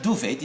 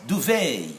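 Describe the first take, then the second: First: DUVET with the final T sounded; wrong pronunciation. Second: DUVET ending in an AY sound, silent T; correct French-derived ending. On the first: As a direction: say "duvet" as doo-vett. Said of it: "It's not". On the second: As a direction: say "duvet" as doo-vay. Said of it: "pronounced also as A". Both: Shown as a demonstration.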